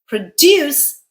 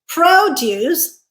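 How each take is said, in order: First: The stress is on the second syllable. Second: The stress is on the first syllable. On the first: It means to create or yield. "second syllable stressed, is our verb" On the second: It refers to fruits and vegetables. "first syllable stressed, is our noun"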